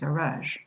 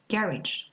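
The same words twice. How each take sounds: First: The stress is on the second syllable. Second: The stress is on the first syllable. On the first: This is the American English pronunciation. "In American English, it will be pronounced garage" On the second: This is the British English pronunciation. "the first syllable"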